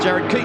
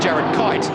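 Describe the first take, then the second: First: The surname's vowel sounds like in 'feet'. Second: The surname's vowel sounds like in 'kite'. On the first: The speaker calls it right. "it's Keat" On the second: The speaker calls it wrong. "what we've been calling Jared Kite"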